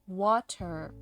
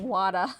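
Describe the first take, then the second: First: The t is clear, with no Boston accent. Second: The t is a soft d, in a Boston accent. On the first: This is how the speech therapist wanted it said. "say water" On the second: This is how the child naturally said it. "little kid me saying wada"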